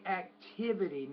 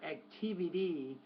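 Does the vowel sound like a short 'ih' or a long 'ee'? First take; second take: short ih; long ee. First: The vowel is a short 'ih' sound. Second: The vowel is a long 'ee' sound. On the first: The speaker calls it right. "I would say activity" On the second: The speaker calls it wrong. "not activity ... not e"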